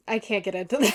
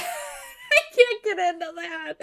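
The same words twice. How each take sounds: First: Plain line broken by a real laugh. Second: Higher, slow, drawn-out whimper; mock whine. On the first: Real, not acted. Telling her viewers, a laugh slipping through. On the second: Whining to viewers about the show, mock crying. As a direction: stretch it out like a fake sob.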